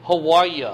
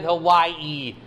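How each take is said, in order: First: Hawaii said with a ya sound, how-WHY-ya; wife's Hawaii. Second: Hawaii said huh-WHY-ee, no ya; Hawaiian Hawaii. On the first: Retold or imitated. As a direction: say Hawaii ending in ya. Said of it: "My wife calls the fiftieth state". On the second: Shown as a demonstration. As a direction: end Hawaii in a clean ee. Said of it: "there's no ya in Hawaii".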